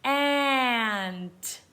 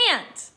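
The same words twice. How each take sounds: First: "Ant" drawn out sound by sound; sounded out slowly. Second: Said in the usual way. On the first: Shown as a demonstration. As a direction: stretch "Ant" into a slow blend. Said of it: "Let's read the sounds". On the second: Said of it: "put 'em together to read the word".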